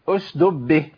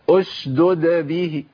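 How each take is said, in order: First: One d sound is dropped and merged. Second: Both d sounds are clearly pronounced. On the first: The speaker calls it wrong. "جاب الساكنة وضيع المتحركة، مينفعش" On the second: The speaker calls it right. "لازم ابين الدالين"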